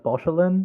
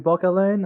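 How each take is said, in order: First: The middle consonant is a soft sh sound. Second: The middle consonant is a hard k sound. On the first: The speaker calls it wrong. "I always read it as Bochelin" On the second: The speaker calls it right. "I think it's supposed to be Bocalin"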